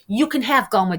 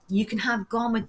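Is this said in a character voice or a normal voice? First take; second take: character; normal. First: It is said in a put-on character voice. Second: It is said in an ordinary, natural voice.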